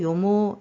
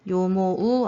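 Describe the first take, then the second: First: The ending is pronounced as one long o sound. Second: The ending is pronounced as a separate u sound. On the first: The speaker calls it right. "이렇게 앞에 발음을 길게 끌어주시면 돼요" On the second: The speaker calls it wrong. "요모우 아니고"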